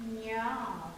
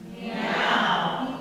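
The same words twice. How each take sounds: First: Throaty meow. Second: Louder meow placed up front; forward meow. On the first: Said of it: "I can do that from my throat". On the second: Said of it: "I can be right up front". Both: Shown as a demonstration.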